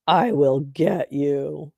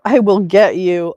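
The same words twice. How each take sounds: First: Slow, low villainous threat; mock menace. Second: Loud, quick blurted threat; mock threat. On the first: Streamer mocking a heckler's comment, slow mock menace. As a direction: draw out the threat ominously. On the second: Streamer reading a heckler's comment, loud mock threat. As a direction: belt out the threat in mockery.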